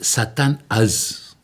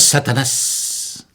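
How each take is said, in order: First: It ends with a th sound, two parts. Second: It ends with an s sound, run together. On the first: The original form meaning the powerful Satan. The speaker calls it right. "es Satán Az" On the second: A mistaken form that merged the words. The speaker calls it wrong. "han cambiado la Z por una S"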